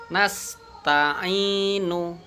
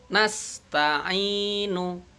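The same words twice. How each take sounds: The two takes are said the same way.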